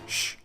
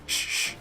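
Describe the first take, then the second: First: The sh sound is short, single. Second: The sh sound is held long, doubled. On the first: "as opposed to just sh" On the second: "a dagesh forte doubles the consonant"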